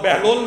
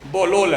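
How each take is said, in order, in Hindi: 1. पहले अक्षर में 'a' स्वर है। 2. पहले अक्षर में 'o' स्वर है। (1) "बहलोल नहीं है" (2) "बोहलोल है"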